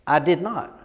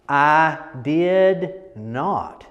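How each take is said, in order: First: Said in the usual way. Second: Very slow, drawn out I did not; slow, extended I did not; stretched out. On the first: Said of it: "a word that might be this". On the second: Shown as a demonstration. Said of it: "turning it into this".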